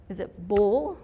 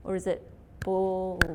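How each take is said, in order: First: Ball said short and loud with a rise; one-beat ball; louder quick ball. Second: Ball stretched slowly as if two beats; ball drawn out. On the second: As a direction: drag out ball long. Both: Shown as a demonstration. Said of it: "How many syllables in ball?".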